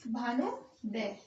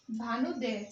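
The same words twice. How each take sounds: First: भानुदय stretched very slowly, each syllable held; drawn-out word. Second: Said in the usual way. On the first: Shown as a demonstration. Teacher to students building the word, slowly drawn-out भानुदय. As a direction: sound out भानुदय slowly for the class.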